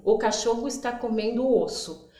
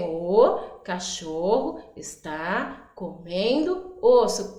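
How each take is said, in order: First: Said in the usual way. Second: Slow, each word set apart for counting. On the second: Shown as a demonstration. Teacher counting words with children, slow and separated. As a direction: space out every word so children can count them. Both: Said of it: "Vamos contar quanto tem?".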